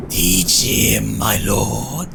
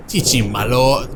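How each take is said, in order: First: Lower, drawn-out villain voice; evil voice. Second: Said in the usual way. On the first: Pretend. Player egging on the lord, trying an evil voice. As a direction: put on a low evil voice. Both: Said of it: "do an evil voice".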